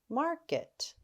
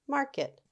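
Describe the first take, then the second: First: The word is said at a fast, blended pace. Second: The word is said at a very fast pace. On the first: "Say it fast" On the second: "Say it super fast"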